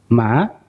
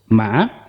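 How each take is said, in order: First: The pitch dips down, then rises. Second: The same.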